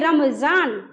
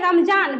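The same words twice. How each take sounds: First: The middle consonant is a z sound. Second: The middle consonant is a plain j sound. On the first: The speaker calls it right. "नुक्ता है तो पढ़ेंगे रमजान" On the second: The speaker calls it wrong. "Normally पढ़ते रमजान"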